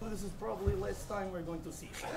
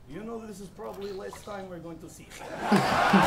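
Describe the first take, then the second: First: Quieter, quicker rerun of the mock Russian accent, laughing; repeating the accent joke to the crowd at a softer, quicker pace; Russian accent again. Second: Low, heavy mock Russian accent, dad voice; a rapper mocking his opponent's father with a low Russian accent. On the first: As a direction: toss the Russian dad line off fast and soft through a laugh. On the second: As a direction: play the Russian dad saying goodbye in a thick accent. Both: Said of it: "That accent was good, eh?".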